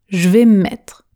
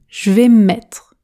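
No difference in how they are said.

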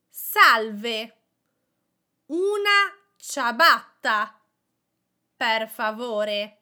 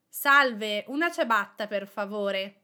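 First: It is said slowly and carefully. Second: It is said at a normal conversational speed.

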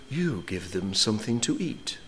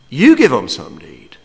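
First: It is said in a gentle, pious tone. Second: It is said in a blunt, exasperated tone.

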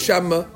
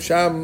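First: An extra vowel is added after the m. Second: The word ends on an audible m. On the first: The speaker calls it wrong. "I don't say shamma" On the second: The speaker calls it right. "but I hear the mem"

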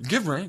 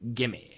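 First: Both words are said fully and separately. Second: The words are blended into one short word. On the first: The speaker calls it wrong. "We don't say give me" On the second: The speaker calls it right. "We say gimme"

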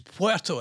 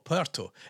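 First: Puerto is pronounced the Spanish way. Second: Puerto is pronounced the English way. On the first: The speaker calls it right. "It's Puerto" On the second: The speaker calls it wrong. "it's not Puerto"

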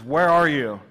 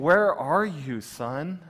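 First: It is said in a mean, booming voice. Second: It is said in a heartbroken, gentle voice.

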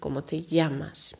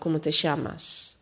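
First: It is said with a Spanish (Spain) accent. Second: It is said with an Argentinian Spanish accent. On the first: "En in Spanje is het" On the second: "In Argentinië bijvoorbeeld is het"

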